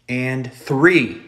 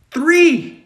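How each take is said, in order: First: Said in the usual way. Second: Much louder and higher; exasperated exclaim. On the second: Real, not acted. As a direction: count it out in disbelief. Exasperated counting.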